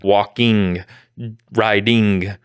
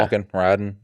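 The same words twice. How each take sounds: First: "walking" and "riding" with a hard final G. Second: "Walking, riding" said as walkin', ridin'; dropped G. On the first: Showing how Southerners say "walking", "riding" with a hard G. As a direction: sound out the G in "riding". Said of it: "the G is so hard pronounced". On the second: Showing that Southerners say "Walking, riding" without the G. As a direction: drop the G in "riding". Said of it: "I don't think we throw in the G". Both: Shown as a demonstration.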